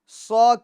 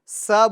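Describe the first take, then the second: First: The s sound is thick and heavy. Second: The s sound is thin and light. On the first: The speaker calls it right. "पूर" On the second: The speaker calls it wrong. "यानी पूर ना करें"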